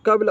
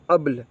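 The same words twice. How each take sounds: First: कब्ल opening on a k sound; common Arabic variant. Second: अब्ल opening on the vowel; other Arabic variant. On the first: Teacher giving the mostly used word, कब्ल with its initial k. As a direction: start कब्ल with a clear k. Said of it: "ज़्यादातर इस्तेमाल जो करते हैं कब्ल". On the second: Teacher showing the other Arabic form, अब्ल without the k. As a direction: drop the initial k, say अब्ल. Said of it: "दूसरी अरबी आती है अब्ल". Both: Shown as a demonstration.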